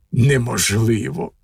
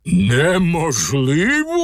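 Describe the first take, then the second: First: Said in the usual way. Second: «Неможливо?» stretched very slowly, climbing steeply at the end; incredulous echo question. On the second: A narrator's reading. Ogre repeats the cat's word «Неможливо?», drawn-out rising disbelief. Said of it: "перепитав людожер".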